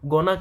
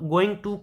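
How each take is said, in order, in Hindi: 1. शब्द छोटे होकर आपस में जुड़ जाते हैं। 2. दोनों शब्द पूरे और अलग-अलग कहे जाते हैं। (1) "गोना कहते हैं" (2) "गोइंग टू को हम लोग क्या कहते हैं"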